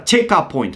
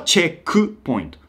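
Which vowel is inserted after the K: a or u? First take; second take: a; u. First: An 'a' vowel is inserted after the K. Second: A 'u' vowel is inserted after the K. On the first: "チェカってあの母音が入ってるんですね。チェックのK の後に。" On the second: "日本語はチェックポイント。"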